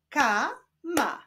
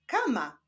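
First: KA, pause, MA; syllable by syllable. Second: Said in the usual way. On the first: Shown as a demonstration. Teacher showing how syllables form a word, Ka-ma split apart. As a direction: break "Kama" into two drawn-out syllables. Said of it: "łączmy sylaby". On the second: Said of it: "Powstaną z nich wyrazy".

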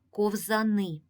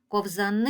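First: Said in the usual way. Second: Ковзани with the last syllable stretched long and rising; long lifted final syllable in Ковзани; calling out the word. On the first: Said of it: "Останнє слово — це ковзани". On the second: Shown as a demonstration. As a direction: call out ковзаниии, leaning on НИ. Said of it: "Погукаємо це слово".

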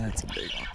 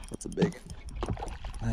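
First: Even softer, barely voiced hush; fishing whisper. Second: Hushed voice so the fish stay calm; fishing whisper. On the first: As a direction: drop it almost to a whisper. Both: Real, not acted. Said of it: "I'm trying to be quiet".

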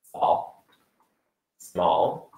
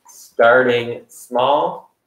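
First: Small whispered then softly echoed; fading whisper. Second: Starting small with small drawn out and rising; stress on small. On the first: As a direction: let small fade to a whisper. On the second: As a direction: stretch the word small slowly upward. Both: Shown as a demonstration.

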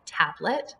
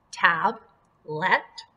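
First: Said in the usual way. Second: "tab, let" as two beats, TAB, pause, LET; split into syllables. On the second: Shown as a demonstration. Teacher shows pupils each syllable, "tab, let" said apart. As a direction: say "tab" and "let" separately with a gap. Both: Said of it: "this is going to be one syllable".

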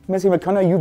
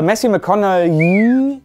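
First: "McConaughey" said briskly, ending in a short "yu"; second pronunciation attempt. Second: "McConaughey" with its last syllable stretched long and high; unsure pronunciation. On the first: Reviewer testing the actor's name, quicker pronunciation. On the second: Reviewer trying out the actor's name, drawn-out pronunciation. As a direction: drag out the end of "McConaughey", unsure how it goes. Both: Shown as a demonstration. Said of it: "wie spricht man den eigentlich aus".

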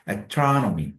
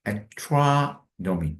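First: Said in the usual way. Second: Astronomy stretched very slowly, stress on the second syllable; very slow stress demo. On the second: Shown as a demonstration. Teacher slowly showing where astronomy is stressed. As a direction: drag astronomy out, leaning on -tro-. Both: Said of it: "두 번째 강세가 있죠?".

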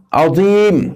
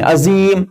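First: عظیم with a heavy, emphatic dh-like ظ, drawn out; correct heavy ظ. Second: عظیم as "azeeem", plain z and drawn out; wrong z sound. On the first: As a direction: model عظیم slowly with a thick ظ, not plain z. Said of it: "صحیح سے نکال سکتے". (عظیم، ظ کا بھاری صحیح تلفظ) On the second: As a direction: demonstrate the mistake, saying عظیم with an ordinary z. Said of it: "غلط ہے". (عظیم، سادہ زا والا غلط تلفظ) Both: Shown as a demonstration.

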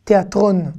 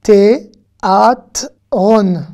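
First: Said in the usual way. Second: Théâtron drawn out very slowly; slow model word. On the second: Shown as a demonstration. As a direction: let each syllable ring.

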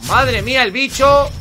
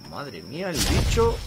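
First: Slow, high, loud astonishment; loud amazement. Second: Slow, drawn-out amazement at usual volume; awed reaction. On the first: Gamer seeing the creature, loudly amazed. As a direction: exclaim it big, high and drawn out. Louder repeat about the creature. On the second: Gamer seeing the creature, awed and restrained. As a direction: marvel slowly, holding back. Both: Real, not acted.

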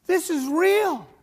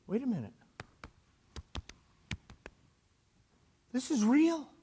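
First: Higher, slower, emphatic exclamation; astonished realisation. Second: Softer, hushed voicing of disbelief; dawning realisation. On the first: Retold or imitated. Peter realising he is free, amazed emphatic cry. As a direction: stretch it out as the truth lands. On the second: Peter to himself outside the prison, quiet realisation. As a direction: let it dawn on you quietly.

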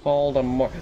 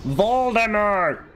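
First: Said in the usual way. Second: High, drawn-out cry of VOLDEMORT; calling out. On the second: Pretend. Player scolding the game character, high drawn-out cry.

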